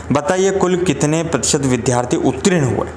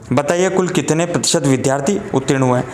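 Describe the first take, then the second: Both takes have the same delivery.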